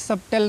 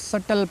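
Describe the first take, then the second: First: A b sound is heard before the t. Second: No b sound is heard before the t. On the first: The speaker calls it wrong. "इसको भी सबटेल नहीं पढ़ना है" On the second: The speaker calls it right. "इसको सटल पढ़ना है"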